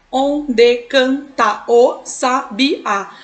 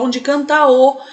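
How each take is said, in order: First: Slow "Onde canta o sabiá", one syllable at a time; measured syllable-by-syllable count of "Onde canta o sabiá". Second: "canta o" joined without a break; vowels run together. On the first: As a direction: chop it into on, de, can, ta o, sa, bi, á. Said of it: "a gente vai contar". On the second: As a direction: glide from the final a of "canta" straight into "o". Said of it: "a gente fala". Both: Shown as a demonstration.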